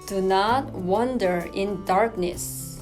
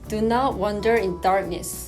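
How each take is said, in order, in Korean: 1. 이 문장은 느리게 읽습니다. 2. 이 문장은 더 빠르게 읽습니다. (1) "한번 천천히 읽어보겠습니다" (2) "조금 더 빨리 해보겠습니다"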